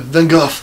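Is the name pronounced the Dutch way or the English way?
Dutch. The name has a Dutch pronunciation.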